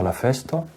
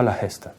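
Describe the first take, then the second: First: The noun begins with an f sound. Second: The noun begins with a breathy h sound. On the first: It is the form outside Gascon. "Au lieu de dire la feste" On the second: It is the Gascon form. "Elle donne une aspiration ... on dira la heste"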